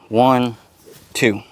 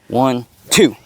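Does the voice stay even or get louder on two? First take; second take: even; louder. First: The voice stays even on both counts. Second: The voice gets louder and harder on two.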